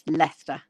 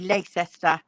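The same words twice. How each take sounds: First: Several written letters of the name are silent. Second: Every written letter of the name is sounded. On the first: The speaker is local to England. The speaker calls it right. "but it's Leicester" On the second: The speaker is new to the name. The speaker calls it wrong. "anybody who comes would say Leicester"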